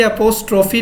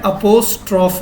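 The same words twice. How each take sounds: First: "अपोस्ट्रॉफी" with a long final ee, the common wrong way; wrong pronunciation. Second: "अपोस्ट्रॉफ" ending on f with no ee; correct pronunciation. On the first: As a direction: demo the mistaken "अपोस्ट्रॉफी" ending in ee. ("अपोस्ट्रॉफी" गलत उच्चारण, अंत में ई) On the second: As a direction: clip "अपोस्ट्रॉफ" cleanly at the f. ("अपोस्ट्रॉफ" सही उच्चारण, अंत में ई नहीं) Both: Shown as a demonstration. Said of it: "अपोस्ट्रॉफी नहीं है".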